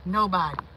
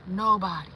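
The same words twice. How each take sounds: The two takes are said the same way.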